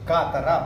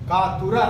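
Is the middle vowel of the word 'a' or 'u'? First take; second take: a; u. First: The middle vowel is an open 'a'. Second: The middle vowel is a rounded 'u'. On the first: The speaker calls it right. "ಅದು ಸರಿಯಾದ ರೂಪ ಕಾತರ" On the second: The speaker calls it wrong. "ಕಾತುರ ಅಲ್ಲ"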